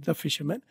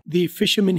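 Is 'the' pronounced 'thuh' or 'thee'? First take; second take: thuh; thee. First: The word 'the' is said as 'thuh'. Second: The word 'the' is said as 'thee'. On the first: It is the ordinary, neutral way to say it. "वैसे fisherman के साथ दा लगना चाहिए" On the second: The speaker is talking with emphasis and certainty. "लेकिन उसने दी बोला. वसूख के साथ बात ही वो कहना चाह रहा है"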